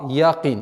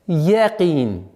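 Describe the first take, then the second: First: The 'ya' has a hard, open 'a' echo. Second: The 'ya' stays soft without an 'a' echo. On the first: The speaker calls it wrong. "звук «я» произносится с, с отголоском «а»" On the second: The speaker calls it right. "чтобы она оставалась мягким звуком"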